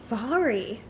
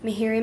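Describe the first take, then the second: First: The name begins with a V sound. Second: The name begins with an M sound. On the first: The speaker calls it right. "Her name is pronounced Vari" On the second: The speaker calls it wrong. "I don't know how to say her name"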